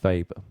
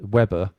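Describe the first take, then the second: First: Weber is said with a German pronunciation. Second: Weber is said with an English pronunciation. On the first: The speaker calls it right. "Weber was German, ... the correct pronunciation is Weber" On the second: The speaker calls it wrong. "you see it written as uh"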